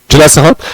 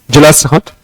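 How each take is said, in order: Both takes have the same delivery.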